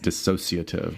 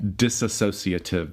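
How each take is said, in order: First: The word is said without an extra syllable. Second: The word is said with an extra syllable. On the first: The speaker calls it right. "There's not that extra syllable" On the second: The speaker calls it wrong. "and it's not"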